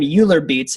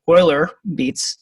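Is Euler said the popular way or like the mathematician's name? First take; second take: popular; mathematician's. First: Euler is pronounced the popular, common way. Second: Euler is pronounced like the mathematician's name. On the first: This is what many people call them. The speaker calls it wrong. "a lot of people call them" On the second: This is how the mathematician's name is pronounced. The speaker calls it right. "the correct pronunciation"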